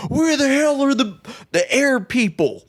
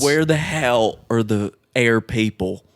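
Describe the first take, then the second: First: High, strained yell of an army general. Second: Put-on slow, hammy Southern accent; terrible southern accent. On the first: Retold or imitated. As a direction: bark it like a panicking general. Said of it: "The general's like". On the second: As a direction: drawl it in a bad Southern accent. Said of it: "In a southern accent. Terrible southern accent".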